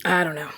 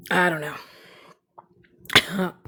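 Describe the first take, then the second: First: Said in the usual way. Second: Slow hushed whisper; whispered shrug. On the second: Real, not acted. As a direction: drag it out in a whisper. Whispered repeat of line 104.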